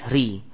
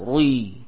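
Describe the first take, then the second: First: The r is pronounced light and thin. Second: The r is pronounced heavy and thick. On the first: "ro kasra itu tipis" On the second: "ada yang membaca dengan tebal"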